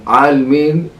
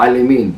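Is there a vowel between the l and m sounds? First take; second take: no; yes. First: There is no vowel between l and m. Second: A short vowel is heard between l and m. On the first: The speaker calls it right. "כאן ריבון עלמין, אנחנו מניחים אותה" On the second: The speaker calls it wrong. "ולא עלמין"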